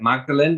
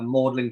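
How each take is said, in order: First: The name is sounded out as it is spelled. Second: The name is said in a shorter, contracted form. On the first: This is how the spelling suggests it is said. The speaker calls it wrong. "looks like it's pronounced like Magdalene" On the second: This is how it is actually said. The speaker calls it right. "in Oxford we have uh, Magdalen College"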